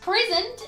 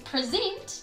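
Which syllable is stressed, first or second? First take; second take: first; second. First: The stress is on the first syllable. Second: The stress is on the second syllable. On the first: It is a noun meaning a gift. "so I stressed the first syllable" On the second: It is a verb meaning to show or talk about. "I stressed the second syllable"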